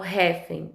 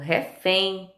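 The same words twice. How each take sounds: First: The stress is on the first syllable. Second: The stress is on the last syllable. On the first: The speaker calls it wrong. "Eu não falo refém" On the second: The speaker calls it right. "eu falo refém"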